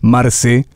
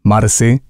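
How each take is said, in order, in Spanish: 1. Las vocales están empujadas fuertemente hacia un sonido E. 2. Las vocales están empujadas fuertemente hacia un sonido E.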